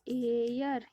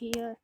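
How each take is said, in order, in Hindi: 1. इस शब्द की शुरुआत स्वर की ध्वनि से होती है। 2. इस शब्द की शुरुआत h की ध्वनि से होती है। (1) "ये है एयर" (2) "ये इसको बच्चे पढ़ते हैं, ये हेयर है"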